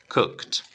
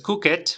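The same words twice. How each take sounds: First: The ending sounds like a plain t. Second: The ending does not sound like a plain t. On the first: The speaker calls it right. "sino cooked" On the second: The speaker calls it wrong. "no es cooked"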